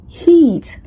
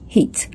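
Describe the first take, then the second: First: The vowel is long and tense. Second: The vowel is short and lax.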